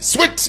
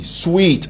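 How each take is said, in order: First: The vowel is short, like 'swit'. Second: The vowel is long, like 'sweet'. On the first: This is how it is said in Zambia. The speaker calls it wrong. "in Zambia, we say sweet. It's sweet. S W I T" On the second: This is how it is supposed to be pronounced. The speaker calls it right. "It's sweet. S W E E T"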